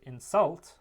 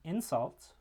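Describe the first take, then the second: First: The stress is on the second syllable. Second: The stress is on the first syllable. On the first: It is the verb. "the second syllable and the second vowel is the stressed one" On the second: It is the noun. "that stressed syllable is the first vowel, the first syllable"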